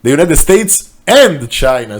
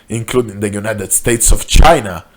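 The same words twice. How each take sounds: First: Correction with "and" hit louder; corrected line, "and" stressed and louder. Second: Said in the usual way. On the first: Real, not acted. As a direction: punch "and" to fix the slip.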